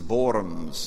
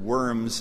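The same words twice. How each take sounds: First: The word begins with a V sound. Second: The word begins with an English W sound.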